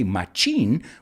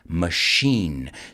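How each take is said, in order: First: The middle consonant is a ch sound. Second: The middle consonant is an sh sound. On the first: The speaker calls it wrong. "We don't say machine" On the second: The speaker calls it right. "has an S H sound, although there's a C H in it"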